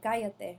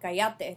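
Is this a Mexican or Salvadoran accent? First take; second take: Mexican; Salvadoran. First: It is said with a Mexican accent. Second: It is said with a Salvadoran accent.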